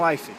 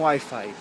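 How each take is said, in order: First: Wi-Fi said the Spanish way, "uifi"; Spanish pronunciation. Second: Wi-Fi said the English way, "why-fye"; English pronunciation. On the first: Showing viewers how Spaniards say Wi-Fi, "ui-fi". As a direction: say Wi-Fi with Spanish vowels, "ui-fi". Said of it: "eles falam Wi-Fi". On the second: Contrasting how Brazilians say Wi-Fi, "uai-fai". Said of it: "Eles não falam Wi-Fi". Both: Shown as a demonstration.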